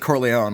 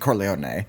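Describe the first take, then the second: First: The name has an American English pronunciation. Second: The name has a Sicilian Italian pronunciation. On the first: This is how people say it in America. "In America, they say Corleone" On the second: This is how people say it in Sicily. "When they go finally go to Sicily, they say Corleone"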